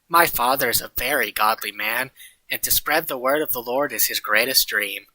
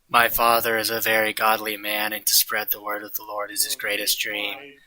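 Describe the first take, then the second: First: It is read with lively, varied intonation. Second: It is said in a flat monotone.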